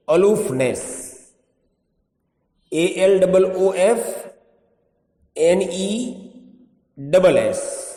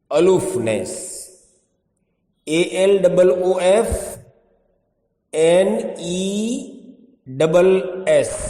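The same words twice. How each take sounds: The two takes are said the same way.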